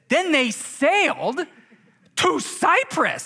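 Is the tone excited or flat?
excited. It is said in an excited, amazed tone. The journey is an astonishing adventure. The speaker calls it right. "You read it like this"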